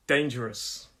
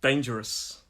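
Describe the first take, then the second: No difference in how they are said.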